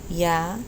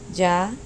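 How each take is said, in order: First: The opening consonant is soft, like a y. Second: The opening consonant is harder, nearer a j. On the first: "you can do either the softer sound" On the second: "I like the middle of the ground"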